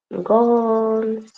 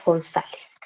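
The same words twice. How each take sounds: First: "González" very drawn out, syllable by syllable; Korean syllable-by-syllable. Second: Said in the usual way. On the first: Shown as a demonstration. Teacher writing their surname in Korean, "González" in long separate syllables. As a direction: stretch "González" slowly, vowel after the last S.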